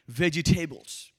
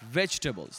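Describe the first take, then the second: First: The word is said with an Indian accent. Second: The word is said with an American accent. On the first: "that's my Indian accent" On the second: "Over here we say vegetables"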